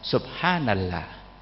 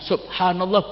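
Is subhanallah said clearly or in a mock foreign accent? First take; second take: mock-foreign; clear. First: It is said in an exaggerated, mangled foreign accent. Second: It is said clearly with fluent Arabic pronunciation. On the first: The reader cannot pronounce Arabic fluently. The speaker calls it wrong. "Baca subhanallah enggak bisa" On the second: The reader pronounces Arabic fluently. The speaker calls it right. "wong Indonesia bisa ngucapno alhamdulillah, subhanallah bisa kok"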